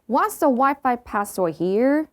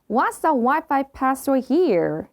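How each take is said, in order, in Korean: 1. 끝에서 목소리가 올라가요. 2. 끝에서 목소리가 내려가요. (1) "이 아니라" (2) "끝을 내려줘야 돼요. ... 이렇게요"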